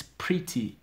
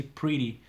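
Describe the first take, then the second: First: Said in the usual way. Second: "pretty" with the t softened to a quick d; US pronunciation. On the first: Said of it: "I'm speaking in this sort of accent". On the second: Shown as a demonstration. Teacher shows learners how the US says it, American "pretty" with a tapped t. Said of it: "In U S, it's normal to say pretty".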